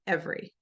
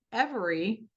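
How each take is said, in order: First: "every" in two syllables, ev-ry, middle one dropped; everyday every. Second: "every" in three full syllables, ev-er-y; spelled-out every. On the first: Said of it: "We say every". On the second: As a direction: say "every" exactly as it is written, ev-er-y. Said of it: "is not pronounced that way". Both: Shown as a demonstration.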